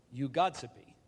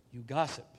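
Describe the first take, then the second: First: "gossipy" said as "GOD-sibby", accent on the first syllable; old Anglo-Saxon form. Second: Said in the usual way. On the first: Shown as a demonstration. Speaker tracing the word's history, "gossipy" pronounced as archaic "GOD-sibby". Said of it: "with the accent on the first syllable". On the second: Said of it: "You gossipy".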